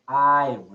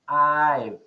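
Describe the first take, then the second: First: The two words are contracted into one. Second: The same.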